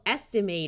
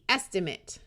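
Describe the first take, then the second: First: The final syllable has a long A vowel. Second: The final syllable has a schwa vowel. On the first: It is a verb: to work out roughly. "the verb gets the long A sound" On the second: It is a noun: a rough figure. "the noun form of the same word gets the schwa"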